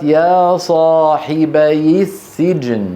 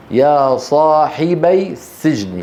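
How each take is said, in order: First: يا صاحبي السجن joined as "sahibayi-ssijn"; linked with kasra. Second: يا صاحبي السجن with صاحبي ending on a vowelless "bay", separate from السجن; unjoined original form. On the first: Teacher shows the fix, صاحبي joined to السجن by short i. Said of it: "فحركت الياء بالكسر". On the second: Teacher shows two sukuns meeting, صاحبي left unlinked from السجن. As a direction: say "sahibay", then "sijn", unlinked. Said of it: "فالتقى ساكنان". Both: Shown as a demonstration.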